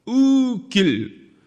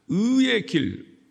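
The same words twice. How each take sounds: First: 의 길 drawn out slowly, much higher and louder; exaggerated dialect word. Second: 의의 길 slowly, higher, attempting both syllables; trying standard form. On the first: Father performing the flattened 의 길 for his children. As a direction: stretch 의 길 out high and slow. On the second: Father tries the standard 의의 길 for his kids. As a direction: strain to say 의의 길 properly. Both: Shown as a demonstration. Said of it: "의의 길 한번 해봐".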